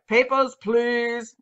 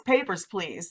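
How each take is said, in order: First: Slow, drawn-out mock German accent; bad German accent. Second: Said in the usual way. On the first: Mock officer demanding documents at a police stop, bad German accent. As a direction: put on a terrible German checkpoint accent. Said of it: "not a German accent at all".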